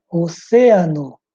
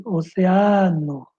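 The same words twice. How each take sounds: First: "Oceano" slow, stressed o-CÉ-a-no; Spanish stress on CÉ. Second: "oceano" drawn out, stressed o-ce-A-no; Portuguese stress on A. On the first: Teacher showing Spanish word, stressed on CÉ. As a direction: punch the second syllable of "Oceano". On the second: Teacher contrasting Portuguese, long stress on A. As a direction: stretch the A in "oceano". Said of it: "em português". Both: Shown as a demonstration.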